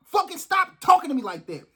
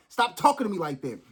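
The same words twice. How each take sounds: First: High, heated command to stop; angry order. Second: Calmer repeat. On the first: Fed up with people talking down to him, angry order. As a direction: snap it out in anger. Angry rant before apologizing. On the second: After apologizing to viewers, calmer softer repeat. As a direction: pull back and say it gently. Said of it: "I'm sorry". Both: Real, not acted.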